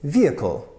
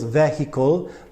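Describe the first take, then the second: First: The syllables are reduced, not all strong. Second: All three syllables are pronounced strongly. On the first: The speaker calls it right. "in the American accent that I know" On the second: The speaker calls it wrong. "So very strong three syllables"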